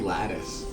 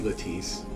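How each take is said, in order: First: It is said as a plain English word. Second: It is said with a French-sounding pronunciation. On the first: "It might be lattice" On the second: "It just sounds Frenchy to me"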